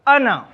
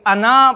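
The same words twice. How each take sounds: First: The final vowel is kept short. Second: The final vowel is drawn out long. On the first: The speaker calls it right. "अना में अलिफ को नहीं पढ़ा जाता, इसे सिर्फ अना पढ़ेंगे" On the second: The speaker calls it wrong. "हो सकता है इसको कोई अना पढ़े, लेकिन ये गलत है"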